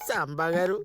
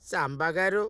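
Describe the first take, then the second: First: The name is said plainly, without extra force. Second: The name is said with heavy, pressed emphasis.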